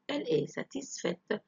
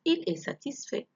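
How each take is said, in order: First: Satisfaite with the final t sounded; feminine ending. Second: Satisfait ending on an open vowel, final t silent; masculine ending. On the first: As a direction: close satisfaite on an audible t. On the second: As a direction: say satisfait with no t sound at the end. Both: Shown as a demonstration. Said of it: "لو كنت أتكلم مع بنت".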